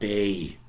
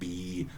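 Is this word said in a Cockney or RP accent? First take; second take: Cockney; RP. First: The vowel is shifted, sounding like bay. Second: It has the standard RP vowel.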